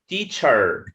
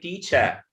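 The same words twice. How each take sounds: First: The final R sound is clearly pronounced. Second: The ending is a weak schwa without R. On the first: The speaker calls it wrong. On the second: The speaker calls it right.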